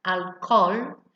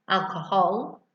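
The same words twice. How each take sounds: First: Alcohol with a silent h, al-col; Spanish alcohol without the h. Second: Alcohol with the H sounded, al-co-HOL. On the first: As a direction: drop the h in alcohol, Spanish style. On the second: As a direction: pronounce the h in alcohol the English way. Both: Shown as a demonstration. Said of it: "we don't pronounce the H in Spanish".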